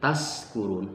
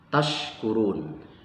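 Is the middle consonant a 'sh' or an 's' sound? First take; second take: s; sh. First: The middle consonant is an 's' sound. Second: The middle consonant is a 'sh' sound. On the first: It means being drunk. The speaker calls it wrong. "dibaca diganti dengan huruf sin" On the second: It means being grateful. The speaker calls it right. "dengan huruf shin"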